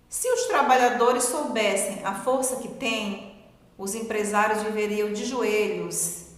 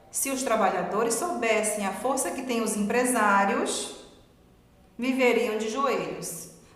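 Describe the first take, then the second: First: The pause comes right after the word 'têm'. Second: The pause comes right after the word 'empresários'. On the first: Employers would be on their knees before the workers. "o poder da vírgula" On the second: The workers would live on their knees. "tirou essa vírgula e mudou ela de lugar"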